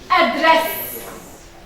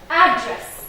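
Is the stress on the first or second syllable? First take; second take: second; first. First: The stress is on the second syllable. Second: The stress is on the first syllable.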